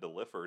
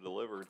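First: The word is said with an F sound. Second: The word is said with a V sound. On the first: The speaker calls it wrong. "you just said delivered" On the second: The speaker calls it right. "instead of delivered"

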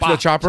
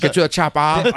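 First: The word 'chopper' ends with an 'er' sound. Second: The word 'chopper' ends with an 'ah' sound. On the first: "Everybody else says chopper" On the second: "there's no ER in chopper for him"

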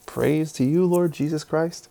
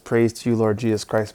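First: It ends with a rising, questioning tune. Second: It ends with a falling, statement tune.

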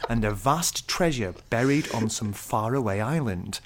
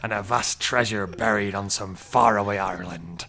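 First: It is read in a posh received-pronunciation accent. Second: It is read in a rough pirate-like accent. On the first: The review is read in a formal, mocking way. "received pronunciation kind of accent" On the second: The review is read as its writer intended. "reading it in the voice he wants"

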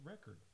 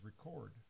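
First: The stress is on the first syllable. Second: The stress is on the second syllable. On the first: It is used as a noun. "as a noun, it's a record" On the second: It is used as a verb. "As a verb, it is record"

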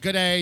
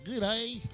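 First: It is run together like one word. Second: It is said as two words, country style.

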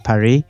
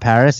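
First: The final s sound is dropped. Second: The final s sound is clearly pronounced. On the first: The speaker calls it right. "They don't like to pronounce any consonants at the end" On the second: The speaker calls it wrong. "So Paris is not Paris"

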